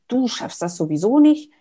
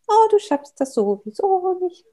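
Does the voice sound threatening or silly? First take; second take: threatening; silly. First: It sounds serious and threatening. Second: It sounds silly, like a comic figure.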